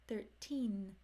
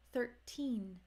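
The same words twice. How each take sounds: The two takes are said the same way.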